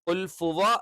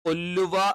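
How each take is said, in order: First: An f sound follows 'qul'. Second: No sound follows 'qul'; it merges. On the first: "ഖുൽ ഫുവ എന്നായി പോകരുത്" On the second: "ഖുല്ലുവ എന്നായി പോകരുത്, തെറ്റാണ്"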